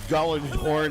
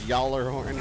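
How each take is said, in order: First: The word begins with a hard G sound. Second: The word begins with a Y sound. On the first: "the first letters of the name are sometimes silent" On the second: "is pronounced as Yallarhorn"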